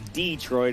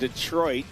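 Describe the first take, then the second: First: It is said in the northern local pronunciation. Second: It is said in a non-northern pronunciation.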